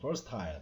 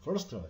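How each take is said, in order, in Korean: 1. 영국식 발음으로 말해요. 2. 미국식 발음으로 말해요. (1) "영국 쪽 발음은 versatile 이렇게 했습니다" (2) "미국 발음은 하여튼 간단하게 하는 거 좋아하죠. versatile 이렇게 했습니다"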